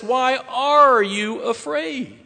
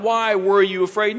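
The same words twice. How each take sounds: First: "are" drawn out high, falling at the end; stress on are. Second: "were" emphasized with a questioning lift at the end; stress on were. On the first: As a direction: slowly punch "are" in a high voice. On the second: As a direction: lean on "were", ending on a rise. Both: Shown as a demonstration. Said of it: "No, he says, "Why are you afraid?".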